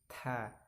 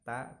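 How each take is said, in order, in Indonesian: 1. Bunyi t-nya dilepas dengan hembusan napas. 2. Bunyi t-nya polos, tanpa hembusan napas tambahan. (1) "kalau ta itu di ada hamsnya" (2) "bukan ta"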